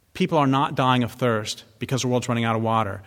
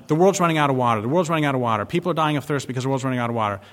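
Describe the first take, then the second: First: Said in the usual way. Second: Mocking the press. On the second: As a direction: parrot the media's panic with scorn. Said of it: "we hear all the time".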